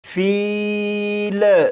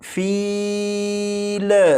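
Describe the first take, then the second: First: The final L ends with an echoing bounce. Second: The same.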